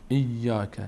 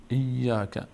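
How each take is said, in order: No difference in how they are said.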